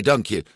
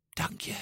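First: Said in the usual way. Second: Hushed, voiceless whisper; whispered thanks. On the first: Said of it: "zei Luca". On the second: A narrator's reading. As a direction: whisper it secretly to grandma. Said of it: "fluisterde Luca zijn oma toe".

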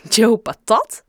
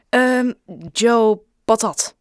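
First: Loud, astonished echo question; stunned, questioning the name; dumbfounded. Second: Slow, halting and louder; making it up on the spot; hesitant improvised name. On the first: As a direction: repeat the name in disbelief, rising at the end. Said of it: "zei ze stom verbaasd". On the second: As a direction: stall on the um, then put the name out in pieces. Boy improvises a fake surname. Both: A narrator's reading.

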